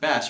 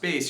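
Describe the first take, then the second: First: Bass is said the way the fish's name sounds. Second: Bass is said the way the instrument's name sounds. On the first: It names a kind of fish. "When you pronounce it bass, you're talking about a fish" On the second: It names a stringed instrument. "when pronounced bass, you're talking about a stringed instrument"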